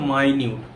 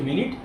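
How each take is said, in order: First: The first vowel sounds like 'my'. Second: The first vowel sounds like 'mitt'. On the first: Very small or detailed. "এটা মানে হচ্ছে মাইনিউট" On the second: A unit of time. "মিনিট মানে কি, যেটা তোমরা সবাই জানো"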